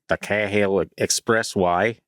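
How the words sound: It is said in an Australian accent.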